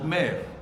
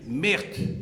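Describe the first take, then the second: First: The name ends without any t sound. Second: The name ends with an audible t sound. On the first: This is how people in Lille say it. "À Lille, on dit, on dit mère" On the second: This is the Flemish and Walloon way of saying it. "le flamand ... Même le wallon dit Merthe"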